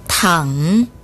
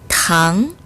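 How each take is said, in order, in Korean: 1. 낮게 떨어졌다가 다시 올라가요. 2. 중간 높이에서 높게 올라가요.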